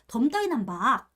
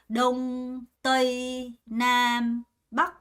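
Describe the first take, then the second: First: The words are said with Korean-style sounds. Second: The words are said with Vietnamese sounds and tones. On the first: The speaker calls it wrong. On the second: The speaker calls it right.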